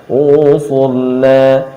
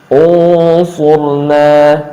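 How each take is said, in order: No difference in how they are said.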